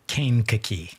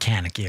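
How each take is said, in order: First: The middle syllable starts with a k sound. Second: The middle syllable starts with an n sound. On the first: The speaker calls it right. "thank you for the proper proper pronunciation" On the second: The speaker calls it wrong. "Not Kanaki or whatever I said"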